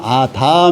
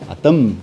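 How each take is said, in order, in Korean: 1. 이 단어는 길게 늘여서 발음해요. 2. 이 단어는 짧고 끊어서 발음해요. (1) "아담 이렇게 길게 길게 들어가는 게 명사가 되는 거고" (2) "아담 이렇게 짧아요"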